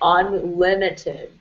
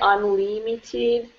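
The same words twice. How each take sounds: First: The short i vowel is made further back. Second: The short i vowel is made further forward. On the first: The speaker calls it right. "remember the short I" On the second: The speaker calls it wrong. "Try not to say unlimited"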